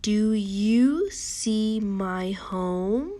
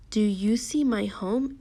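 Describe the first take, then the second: First: "Do you see my home" very slow, "home" sweeping upward; questioning tune. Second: Said in the usual way. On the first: Shown as a demonstration. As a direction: model "Do you see my home" as a question, stretching each word and lifting "home". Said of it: "say it like you're asking a question".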